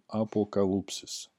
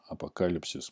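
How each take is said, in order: First: It is said with the Greek pronunciation. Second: It is said with the Russian pronunciation. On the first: This is the original Greek form. "На греческом" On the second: This is the usual form in Russian. "мы произносим"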